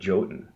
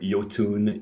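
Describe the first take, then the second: First: The word begins with a J sound. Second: The word begins with a Y sound. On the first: This helps North Americans know what to search for. "the main reason we've always said Jotun" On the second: This is how it is said in Scandinavia. "it is supposed to be pronounced Jotun or Jotun in uh, in in Scandinavian"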